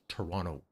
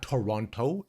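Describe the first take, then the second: First: The second T sound is dropped entirely. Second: The second T sound is clearly pronounced. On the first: The speaker calls it right. "we do not pronounce the second T" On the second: The speaker calls it wrong. "Not Toronto"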